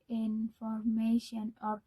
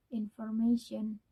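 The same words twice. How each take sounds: First: Information said slowly with every syllable given equal weight; even syllables. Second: Said in the usual way. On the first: Shown as a demonstration. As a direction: give each syllable of information the same weight, no stress. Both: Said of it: "pronounce all the syllables the same".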